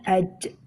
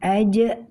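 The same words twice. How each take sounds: First: The final consonant sounds like a ch sound. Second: The final consonant is a voiced j sound. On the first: The speaker calls it wrong. "dibaca aj ... seperti kita membaca huruf c" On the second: The speaker calls it right. "ketika mengucapkan aj"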